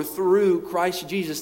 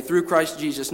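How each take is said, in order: First: "Through" slow and stressed, drawn out; emphasizing through. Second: Said in the usual way. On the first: Shown as a demonstration. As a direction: lean hard on "Through", slow the whole phrase. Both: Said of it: "He's emphasizing over and over".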